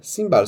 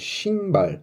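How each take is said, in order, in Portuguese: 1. A palavra começa com um som de s simples. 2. A palavra começa com um som de sh. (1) "eles sempre liam simbar, simbar, só que não tá certo" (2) "é shimbar"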